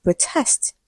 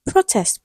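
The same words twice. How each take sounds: First: "protest" as pro-TEST, softer; stress on second syllable. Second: "Protest" as PRO-test, high then falling; stress on first syllable. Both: Shown as a demonstration. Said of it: "We have so many examples".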